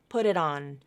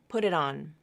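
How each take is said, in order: First: The T sounds are quick flaps linking the words. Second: The same.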